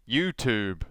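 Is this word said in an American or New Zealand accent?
American. It is said in an American accent. "they say"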